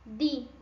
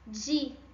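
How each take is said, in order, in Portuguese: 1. O d é feito com a língua entre os dentes. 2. O d é feito sem a língua entre os dentes. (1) "quando eu falo de com i na língua espanhola, ela fica entre o meu dente de baixo e o meu dente de cima" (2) "quando eu falo em português, a minha língua não faz esse movimento"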